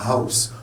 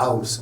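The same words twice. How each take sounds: First: "house" with a breathed H before AUS; H pronounced. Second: "house" with the H dropped, AUS; French silent H. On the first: Teacher correcting French habit, H sounded. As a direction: make the H in "house" audible. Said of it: "Vous prononcez le H". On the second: Teacher showing the mistaken French way, H silent. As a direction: say "house" starting straight on the vowel. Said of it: "C'est pas un house en français". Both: Shown as a demonstration.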